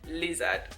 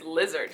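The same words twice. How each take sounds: First: It is said in a non-American accent. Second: It is said in an American accent. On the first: This is how it is said back home. "I wasn't fully like in my American accent with day, so I said lizard" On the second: This is how it is said here. "but here it's lizard. So you got to say lizard"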